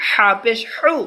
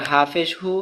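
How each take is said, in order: First: "হু" with a squeezed, pressed h, higher and slow; slow, raised "হা পেশ হু" with the h forced through a tight throat. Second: Said in the usual way. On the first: Shown as a demonstration. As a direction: press hard on the h of "হা" and "হু". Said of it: "চাপ". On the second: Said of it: "এটা normal".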